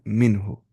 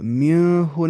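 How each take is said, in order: First: The n sound is said clearly. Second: The n sound is hidden in the nose. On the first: The speaker calls it right. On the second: The speaker calls it wrong.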